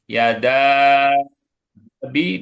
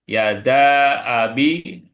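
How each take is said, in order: First: The long vowel is held for extra counts. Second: The long vowel is held for only two counts. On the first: The speaker calls it right. "mat lebih dua harokat" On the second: The speaker calls it wrong. "dibaca dua"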